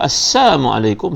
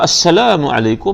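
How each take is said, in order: First: The greeting is said without the syllable 'la'. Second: The greeting is said with the syllable 'la'. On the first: A wish of death upon the listener. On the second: A wish of peace upon the listener.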